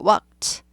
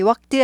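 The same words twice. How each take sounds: First: The ending is said as a t sound. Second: The ending is said as a d sound. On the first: The speaker calls it right. "t 발음이 납니다" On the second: The speaker calls it wrong. "아니고"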